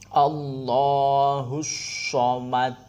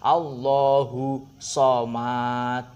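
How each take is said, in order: First: The final vowel runs straight into an s sound. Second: The final vowel ends without an s sound. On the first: The speaker calls it right. "ini hak domahnya langsung masuk ke shot" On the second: The speaker calls it wrong. "bukan Allahu somad. Itu salah"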